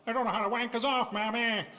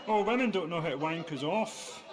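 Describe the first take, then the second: First: Put-on old minstrel-show crooner, higher pitched. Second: Said in the usual way. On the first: Comedian mocks his own line, crooning vaudeville impression. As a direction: belt it like a vaudeville number. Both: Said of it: "turned that into an [name] number".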